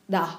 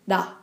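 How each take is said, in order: First: The consonant sounds close to a light D. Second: The consonant sounds close to a light D.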